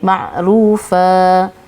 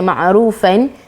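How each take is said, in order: First: The word ends with a long 'a' sound. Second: The word ends with an 'an' sound. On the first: The speaker calls it right. "kita baca ma'rufa" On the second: The speaker calls it wrong. "kita tak baca ma'rufan"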